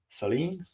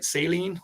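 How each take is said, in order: First: It sounds unlike the word for salt solution. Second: It sounds like the word for salt solution. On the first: "or is it Saline?" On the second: "like the solution"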